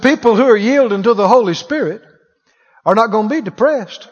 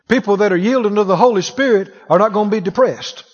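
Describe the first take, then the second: First: It is said slowly. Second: It is said at normal speed.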